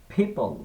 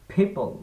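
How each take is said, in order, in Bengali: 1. প্রথম ব্যঞ্জনে বাতাসের ধাক্কা আছে। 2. প্রথম ব্যঞ্জনে বাতাসের ধাক্কা আছে।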